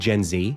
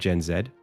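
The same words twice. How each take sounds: First: The Z is said the American way, "zee". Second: The Z is said the Australian way, "zed".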